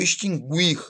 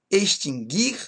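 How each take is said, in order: First: The u after the g is pronounced. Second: The u after the g is silent. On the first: The speaker calls it wrong. "com ditongo. Está errado" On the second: The speaker calls it right. "não se pronunciam como ditongo"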